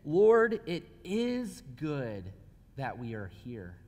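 It is said as a statement.

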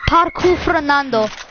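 It is said in a put-on accent.

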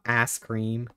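The vowel in 'ice' is flattened, Southern-style. "The Southern came out"

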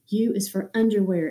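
The words are said in a full voice.

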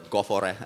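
The name is pronounced the Finnish way.

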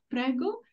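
The pitch rises at the end of the word. It invites the customer to order something. "you can say with intonation going up"

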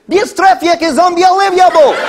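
It is said in a put-on Russian accent.

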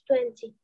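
It is said with a British accent.

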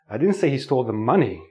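The stress falls on the word money. Something other than money was stolen. "I'm stressing money means he stole something else"

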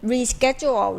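The word is said in an American accent. "สำเนียงอเมริกันก็จะได้ยิน"

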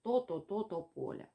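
The first syllable is repeated several times. The speech muscles contract in quick spasms. "будемо чути повторення звуків"

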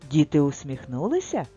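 It is said with a questioning tune. Something is being asked. "прочитаємо це з запитанням"

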